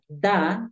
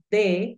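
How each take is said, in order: First: The word ends with an 'a' vowel sound. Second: The word ends with an 'e' vowel sound. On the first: "lo puedes pronunciar da" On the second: "lo puedes pronunciar de"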